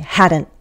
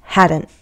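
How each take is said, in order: The two takes are said the same way.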